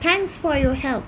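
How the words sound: It uses a British accent, dropping the r sounds. "British উচ্চারণ করছে"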